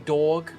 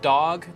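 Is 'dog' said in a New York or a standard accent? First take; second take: New York; standard. First: It is said in a heavy New York accent. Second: It is said in a plain, general American accent. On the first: "they say dog" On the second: "Instead of dog"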